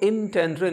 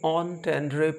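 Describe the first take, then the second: First: The first syllable sounds like "in". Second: The first syllable sounds like "on". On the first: The speaker calls it wrong. "इसको इन टेंड्रे नहीं पढ़ते हैं" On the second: The speaker calls it right. "ऑन टेंड्रे पढ़ते हैं"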